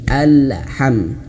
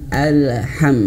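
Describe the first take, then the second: The two takes are said the same way.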